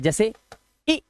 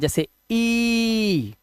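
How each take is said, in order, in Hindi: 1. स्वर की ध्वनि जल्दी से काटकर छोटी की जाती है। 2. स्वर की ध्वनि लंबी खींची जाती है। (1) "आवाज बहुत जल्दी आती है" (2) "लंबी आवाज"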